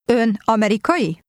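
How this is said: It has question intonation.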